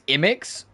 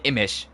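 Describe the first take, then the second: First: The name ends with a 'ks' sound. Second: The name ends with a 'sh' sound. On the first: "pronounce the X like an X" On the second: "more of like a sh"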